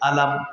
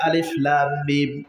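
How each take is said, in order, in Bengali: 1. অক্ষরগুলো জুড়ে একটি শব্দ হয়, alam। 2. প্রতিটি অক্ষর আলাদাভাবে নাম ধরে পড়া হয়: alif, lam, mim। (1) "জের জবর পেশ যা আছে সেটা দিয়েই কিন্তু আমরা পড়েছি আলাম" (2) "সূরাতুল বাকারার শুরুতে আমরা দেখতে পাচ্ছি আলিফ লাম মিম"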